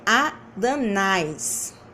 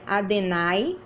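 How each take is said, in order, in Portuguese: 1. A segunda vogal é o som de 'a'. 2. A segunda vogal é o som de 'e'. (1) "é adanais" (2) "não é adenai"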